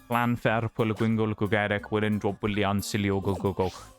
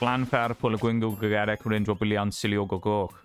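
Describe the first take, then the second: First: The name is said at a slower pace. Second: The name is said at a quicker pace. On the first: The speaker calls it right. "That's the one. Slightly slower version of it" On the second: The speaker calls it wrong. "I didn't get the uh, the proper proper sounding pronunciation on that"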